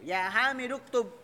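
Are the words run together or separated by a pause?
run together. The words run together with no pause.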